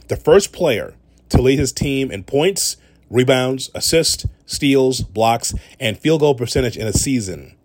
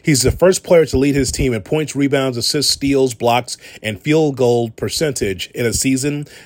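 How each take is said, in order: First: It is said slowly and deliberately. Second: It is said at a normal, quicker pace.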